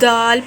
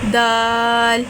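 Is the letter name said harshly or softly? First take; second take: harsh; soft. First: It is said harshly, with a forceful consonant. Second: It is said softly, with a gentle consonant. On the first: The speaker calls it wrong. "कुछ अपने तरीके से सख्ती से दाल पढ़ते हैं" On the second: The speaker calls it right. "इसको सख्ती से नहीं, इसको नरमी से पढ़ा जाता है"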